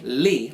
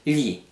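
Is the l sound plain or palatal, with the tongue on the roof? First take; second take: plain; palatal. First: It has a plain, ordinary l sound. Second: The tongue slides along the roof of the mouth. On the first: The speaker calls it wrong. "you're not just saying li like that" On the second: The speaker calls it right. "the tongue is sliding on the top of the roof of your mouth"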